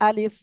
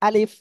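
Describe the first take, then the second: The two takes are said the same way.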